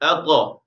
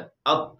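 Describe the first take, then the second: First: The final q is released with a small bounce. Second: The final q stops abruptly without any bounce. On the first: The speaker calls it right. "ये सही तरीका है" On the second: The speaker calls it wrong. "आवाज़ रुक जाएगी, झटका नहीं लगेगा। अक़ तो ये गलत तरीका है"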